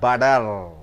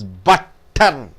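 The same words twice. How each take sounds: First: The middle consonant is a soft D sound. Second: The middle consonant is a clear T sound. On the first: The speaker calls it right. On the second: The speaker calls it wrong.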